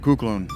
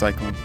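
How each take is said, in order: First: It starts with 'koo' as in Greek. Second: It starts with 'sy' as in English. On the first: "more like Kuklon in uh, Greek" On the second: "In English"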